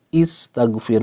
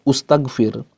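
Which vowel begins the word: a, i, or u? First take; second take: i; u. First: The word begins with an i vowel. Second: The word begins with a u vowel. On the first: The speaker calls it right. "dimulai dengan uh, kasroh" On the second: The speaker calls it wrong.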